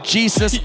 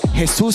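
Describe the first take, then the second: First: The name is said with an English pronunciation. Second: The name is said with a Spanish pronunciation. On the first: The speaker calls it wrong. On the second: The speaker calls it right.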